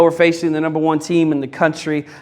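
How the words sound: The voice sounds worried and defeated. The team expects to lose. The speaker calls it wrong. "When you're concerned with opposition, it sounds more like"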